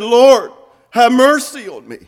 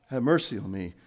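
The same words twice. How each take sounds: First: Loud, high, fervent plea; impassioned shout to the Lord; crying out. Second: Low, soft and unraised; subdued, matter-of-fact request; understated plea. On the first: Acted. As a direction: raise your voice and cry out for mercy. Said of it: "He cried out and said". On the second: Shown as a demonstration. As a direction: say it quietly, with no cry in it. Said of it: "Bartimaeus just didn't say".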